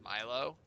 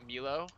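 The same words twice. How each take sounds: First: Milo said as MY-lo; pronounced MY-lo. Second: Milo said as MEE-lo; pronounced MEE-lo. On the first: Speaker guesses at listener's name, Milo as MY-lo. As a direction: say Milo with a long I, like "mile-oh". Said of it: "I would just pronounce her name". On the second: Speaker tries another guess at the name, Milo as MEE-lo. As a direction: say Milo with an EE in the first syllable. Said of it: "or something like that". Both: Shown as a demonstration.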